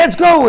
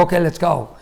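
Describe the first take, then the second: First: High, loud, urgent call to leave; raised-voice eager hurry-up; frantic urging. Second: Understated impatient readiness; resigned, usual-pitch call to leave; a touch of bad mood; mildly grumpy. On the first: Retold or imitated. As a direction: rush them out the door excitedly. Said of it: "like, all over the place". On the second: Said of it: "I'm not in a very good mood".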